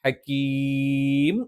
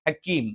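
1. ദീർഘസ്വരം അധികം നീട്ടി ഉച്ചരിക്കുന്നു. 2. ദീർഘസ്വരം സാധാരണ നീളത്തിൽ നീട്ടുന്നു. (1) "അവിടെ നമ്മൾ വഖഫ് ചെയ്യുകയാണെങ്കിൽ ഹക്കീം എന്ന് നീട്ടണം" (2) "സാധാരണ നീട്ടുന്നത് പോലെ നീട്ടിയാൽ മതി"

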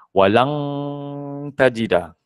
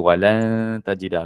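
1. Bunyi n diubah menjadi bunyi ng yang jelas. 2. Bunyi n disamarkan sebagai bunyi sengau yang ringan. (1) "Ada N G tu Ustaz" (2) "kena sembunyikan N G, jangan sentuh langit"

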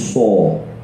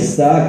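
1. Suku kata itu diucapkan berat dan tebal. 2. Suku kata itu diucapkan ringan dan tipis. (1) "kita tebalkan jadi so" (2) "kalau kita baca sa"

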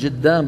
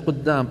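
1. الحرف الأول هو صوت 'j'. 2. الحرف الأول هو صوت 'q'. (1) "قبيلة تقلب القاف جيما، مثل ما مثلا يقولون جدام" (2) "بدل إيش قدام"

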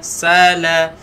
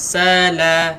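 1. Bunyi s pertama itu tebal dan berat. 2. Bunyi s pertama itu tipis dan ringan. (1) "huruf sa tebalkan" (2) "Jangan sala"

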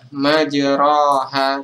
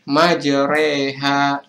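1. Vokal setelah r adalah a terbuka biasa. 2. Vokal setelah r condong ke arah e. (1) "kita tidak membaca majroha" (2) "bacanya adalah majreha"

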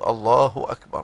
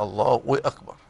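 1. لا يأتي صوت w قبل الكلمة الثانية. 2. يُضاف صوت w قبل الكلمة الثانية. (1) "لابد أن يقول الله أكبر" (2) "فالبعض ينطق الكلمة مثلا الله وأكبر، يحط واو"

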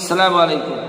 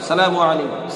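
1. শুরুর 'as' অংশটি বাদ দেওয়া হয়। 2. শুরুর 'as' অংশটি বাদ দেওয়া হয়।

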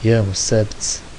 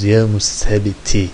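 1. Kelime sonunda çıplak bir ünsüzle biter. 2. Kelime sonunda kısa bir ünlüyle biter. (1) "sonuncu harfi cezimli okurlar" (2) "Sondaki hareketlere şey yapmayın"

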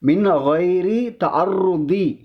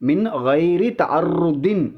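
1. கடைசி சொல் ஒரு சாதாரண உயிரெழுத்தில் முடிகிறது. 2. கடைசி சொல் 'n' ஒலியில் முடிகிறது.

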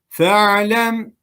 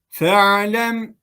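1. İlk ünlü kısa tutulur. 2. İlk ünlü kısa tutulur.

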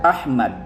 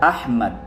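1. May patinig na 'a' ang ikalawang pantig. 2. May patinig na 'a' ang ikalawang pantig.

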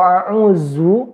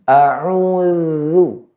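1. Konsonan di tengah terdengar seperti z. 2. Konsonan di tengah adalah bunyi th bersuara. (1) "tidak ada artinya a'uzu" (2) "ujung lidah ketemu dengan ujung gigi atas"

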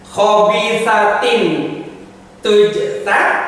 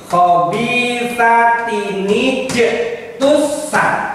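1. Kata-kata itu dibaca tanpa bunyi sambungan 'ni'. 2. Kata-kata itu disambung dengan bunyi sambungan 'ni'.

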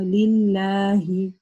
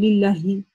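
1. Гласная 'a' долгая. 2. Гласная 'a' краткая. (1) "у нас есть алиф, да, мы не говорим лилляхи, а лилляхи" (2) "мы не говорим лилляхи"

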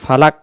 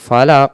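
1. শেষের ব্যঞ্জনটি হালকা, সাধারণ k। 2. শেষের ব্যঞ্জনটি গভীর, আর একটা ঝাঁকুনি দিয়ে ছাড়া হয়। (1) "তাহলে এটা কফটা হবে না, তখন কাফ হয়ে যাবে" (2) "উচ্চারণটা ছেড়ে দেব"

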